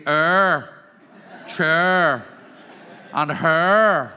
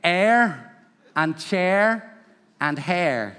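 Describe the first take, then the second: First: "air", "chair", "hair" turned to "er", "cher", "her"; Northern Irish vowels. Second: "air", "chair", "hair" with open "eh" vowel; standard English vowels. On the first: Teacher shows local speech, Northern Irish "er, chur, her". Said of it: "We say". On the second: Teacher quotes the audience's way, open-vowelled "air, chair, hair". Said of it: "you would say". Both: Shown as a demonstration.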